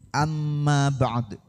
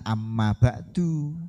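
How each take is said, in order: First: The last word ends on a bare consonant. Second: The last word ends with an added vowel. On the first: The speaker calls it right. "Kan sudah diajari cara membaca wakof" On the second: The speaker calls it wrong. "Jangan amma ba'du"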